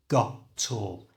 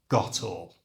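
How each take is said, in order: First: It is said slowly, with each part separated. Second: It is said quickly, at ordinary conversational speed. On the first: "So it becomes got tall" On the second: "And at normal speed"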